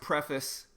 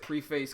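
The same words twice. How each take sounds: First: It is said with the standard pronunciation. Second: It is said with a Southern US pronunciation. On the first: "I know it's pronounced preface" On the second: "I pronounce it preface because I'm from the South"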